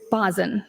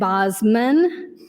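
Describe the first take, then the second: First: A vowel directly follows the s sound. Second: An m sound follows the s sound. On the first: The speaker calls it right. "but it's Bosin, correct?" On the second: The speaker calls it wrong. "and Bosman"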